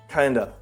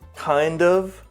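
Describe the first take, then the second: First: The word 'of' is reduced to 'uh'. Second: The word 'of' is fully pronounced.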